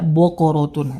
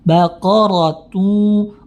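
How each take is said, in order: First: The vowels sound dark, like 'o'. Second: The vowels sound open, like 'a'. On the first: The speaker calls it wrong. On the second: The speaker calls it right.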